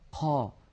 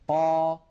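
First: The q sound is released with a puff of air. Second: The q sound is released without a puff of air. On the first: The speaker calls it wrong. "يجعلون كمية من الهواء تتدفق مع صوت القاف المتحركة" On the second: The speaker calls it right. "القاف حرف مجهور"

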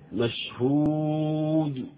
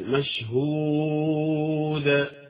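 First: The final d releases with lips still rounded. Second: The final d releases with lips opened. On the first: The speaker calls it wrong. "خطأ" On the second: The speaker calls it right. "لا بد أن تفتح"

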